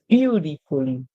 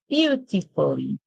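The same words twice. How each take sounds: First: The T is softened, not fully pronounced. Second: The T is pronounced clearly.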